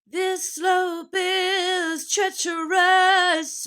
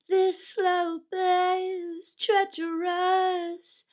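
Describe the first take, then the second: First: It is delivered with forceful, pushing energy. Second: It is delivered in a restrained, contained way. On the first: The speaker calls it wrong. "very like pushing" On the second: The speaker calls it right. "It's all contained"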